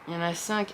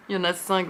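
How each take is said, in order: First: Said in the usual way. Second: Quick self-mocking laugh through the words; laughing at herself. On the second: Real, not acted. Booktuber correcting her own miscount, laughing. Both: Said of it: "Ah ben je suis bête".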